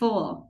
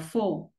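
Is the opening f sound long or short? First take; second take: long; short. First: The f sound at the start is long. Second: The f sound at the start is short. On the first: "mình sẽ đẩy hơi dài là full" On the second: "thay vì đọc là full"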